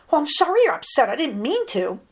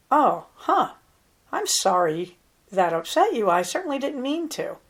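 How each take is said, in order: First: Quick, higher brush-off apology; insincere apology. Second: Sincere, unhurried apology with pauses; softened apology. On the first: Coach showing an apology that won't work, hurried and insincere. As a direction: rattle off the sorry louder and faster, without meaning it. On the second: Coach showing how to soften toward an upset person, sincere and measured. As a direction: take it in with "oh, huh", then apologize gently. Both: Shown as a demonstration. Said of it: "That won't work as well as".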